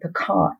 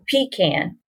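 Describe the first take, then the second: First: It is said the urban, city way. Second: It is said the country, rural way.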